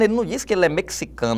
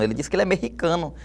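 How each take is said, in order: First: The x is pronounced as a ks sound. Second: The x is pronounced as a throaty h sound. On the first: This is the standard academy pronunciation. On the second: This is how people from Mexico say it. "ele ganha som realmente de rota"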